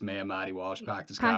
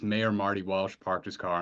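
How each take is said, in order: First: It is said in a strong Boston accent. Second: It is said in a plain, neutral accent.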